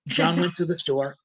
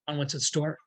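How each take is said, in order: First: It is spoken at normal speed without emphasis. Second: It is spoken quickly without emphasis. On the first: "speeding it up to normal level now" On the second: "Then see if you can make it even faster"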